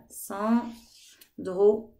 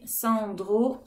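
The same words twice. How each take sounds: First: Sandro slowly cut in two, San, then dro; split into syllables. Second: Said in the usual way. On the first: Shown as a demonstration. Teacher shows children the syllables of Sandro, broken apart. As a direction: say Sandro syllable by syllable with a gap between. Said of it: "j'ai deux syllabes". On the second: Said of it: "les syllabes".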